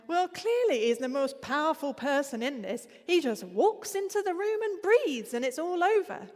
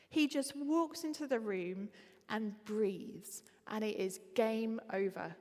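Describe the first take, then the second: First: Louder, higher imitation of a straight-talking northern accent; a hint of Northern English accent, loud and high. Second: Said in the usual way. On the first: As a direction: lightly mimic a blunt Northern English woman. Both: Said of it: "I'm really sorry about the accent".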